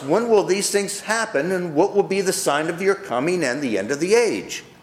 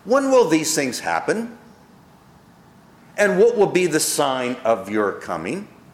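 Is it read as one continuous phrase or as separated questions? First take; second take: continuous; separated. First: It flows as one continuous phrase. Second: It is split into separate questions.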